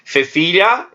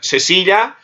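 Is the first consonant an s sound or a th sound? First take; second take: th sound; s sound. First: The first consonant is a tongue-between-teeth th sound. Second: The first consonant is a hissing s sound. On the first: This is how it is said in Spain. "interdental, Espanha" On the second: This is how it is said in Latin America. "sem interdental, na América"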